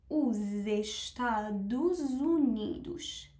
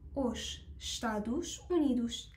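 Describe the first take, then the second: First: Final s sounds link to vowels as z. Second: Each final s is a separate sh sound. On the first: "اس ها رو به حروف صدادار بعدشون وصل بکنم و اونا رو با صدای ز بخونم" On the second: "من ترجیحم ... همیشه صدای ش بوده"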